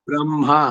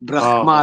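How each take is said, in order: First: The m sound comes before the h sound. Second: The h sound comes before the m sound. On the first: The speaker calls it right. "ಬ್ರ ಆದ್ಮೇಲೆ ಮಾ ಬರ್ದು ಅದ್ರ ಕೆಳಗಡೆ ಆವತ್ ಹಾಕ್ಬೇಕು" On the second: The speaker calls it wrong. "ಬ್ರಹ್ಮ ಅಲ್ಲ"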